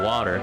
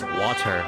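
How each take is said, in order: First: The middle consonant sounds like a D. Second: The middle consonant is a clear T. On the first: The speaker calls it wrong. "like with a D" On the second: The speaker calls it right. "it's water"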